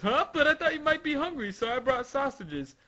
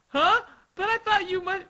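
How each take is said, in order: First: Higher, hurried apologetic explanation; puzzled servant. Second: Very high acted confusion; startled character voice. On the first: Acted. Servant offering Sugar sausages, hurried puzzled voice. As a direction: explain quickly in a raised voice. Servant line redone after attribution. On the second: Servant answering Sugar's tirade, high puzzled voice. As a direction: pitch it way up, puzzled.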